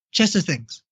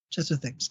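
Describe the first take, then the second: First: Said in the usual way. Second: Much softer, lower repeat to himself; muttered echo. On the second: Real, not acted. Getting back to the topic on the podcast, softly repeating himself. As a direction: say it again under your breath. Repeats it under his breath.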